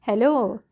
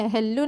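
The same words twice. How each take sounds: First: Said in the usual way. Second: हेलो with doubled l and a short final vowel, "hel-lu"; wrong pronunciation. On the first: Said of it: "क्या बोलते हैं". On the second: Shown as a demonstration. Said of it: "हेलो नहीं, क्या बोलते हैं".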